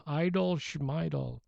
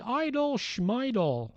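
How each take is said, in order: First: Put-on Jewish accent. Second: High, slow Barney Fife voice. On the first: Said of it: "with sort of a Jewish accent". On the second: Retold or imitated. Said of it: "he does a perfect Barney Fife imitation".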